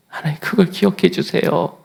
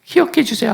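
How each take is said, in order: First: Said in the usual way. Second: 기억해 pitched high, falling, pleading; tearful plea. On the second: Retold or imitated. Hezekiah weeping as he asks God to remember. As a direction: cry 기억해 out high and let it fall. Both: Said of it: "하고 웁니다".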